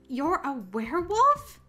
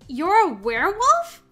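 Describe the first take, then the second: First: It is said quietly. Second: It is said loudly.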